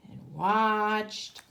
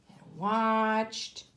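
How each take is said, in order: Both takes have the same delivery.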